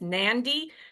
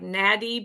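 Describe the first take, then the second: First: It is said with an n before the d. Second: It is said with a plain d sound. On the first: The speaker calls it right. "but it's Nandi" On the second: The speaker calls it wrong. "this looks like Nadi"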